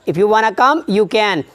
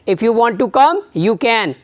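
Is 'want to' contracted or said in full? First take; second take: contracted; full. First: Want to is contracted into one word, wanna. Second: Want to is said as two full words.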